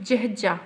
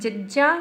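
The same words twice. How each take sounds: First: جهجا with a breathy h after the first j and a falling tone; جهجا said as jəhja with a drop in pitch; aspirated jh. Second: ججا said with a clean, plain j; ججا without any h breath; ججا as a simple jaja; plain ja sound. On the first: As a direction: give جهجا a clear h breath and let it fall. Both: Shown as a demonstration. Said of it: "جيئن جي آهي ۽ جي هي آهي".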